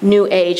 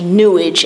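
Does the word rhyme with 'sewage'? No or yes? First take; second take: no; yes. First: It is said as two words, 'new age'. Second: It is said as one word rhyming with 'sewage'.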